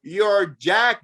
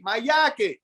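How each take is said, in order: First: "jacket" slowly, with a clear English J; correct English J. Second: "yake" for jacket, starting with a Y sound; higher voice, "yake" in a Spanish accent. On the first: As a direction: draw out "jacket" as listeners finally understanding. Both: Retold or imitated. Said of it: "the Y's and the J's are backwards".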